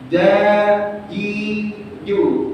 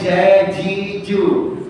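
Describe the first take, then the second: First: The j sound is dry with no breath. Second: The j sound has extra breath escaping. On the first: The speaker calls it right. "Ja, kering. ... tanpa hamas, tanpa udara" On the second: The speaker calls it wrong.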